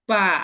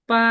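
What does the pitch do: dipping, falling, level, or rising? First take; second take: dipping; level. First: The pitch dips down then rises. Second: The pitch stays high and level. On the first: "তিন নম্বর tone" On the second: "এটা ফ্ল্যাট হয়ে যাবে"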